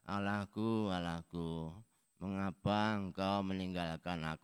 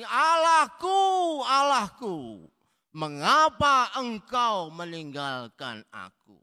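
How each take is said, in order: First: The phrase is said in a quiet, weak voice. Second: The phrase is cried out in a loud voice. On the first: The speaker calls it wrong. "Bukan ... Enggak gitu" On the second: The speaker calls it right. "berseru dengan suara nyaring"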